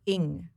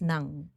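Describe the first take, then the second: First: The name begins with a vowel sound. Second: The name begins with an N sound. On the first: "apparently N G is pronounced Ing" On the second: "dito sa Pilipinas it's Nang"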